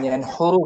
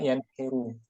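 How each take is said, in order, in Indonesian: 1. Vokal tengah setelah n adalah u. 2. Vokal tengah setelah n adalah i. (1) "bukan yanhuru" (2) "bukan juga yanhiru"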